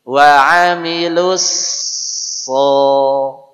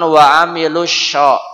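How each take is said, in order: First: The last syllable starts with an emphatic s. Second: The last syllable starts with a sh sound. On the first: The speaker calls it right. "cara mudah mengucapkan sod yang benar" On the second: The speaker calls it wrong. "Jangan wa amilus sya, sya, sya enggak boleh"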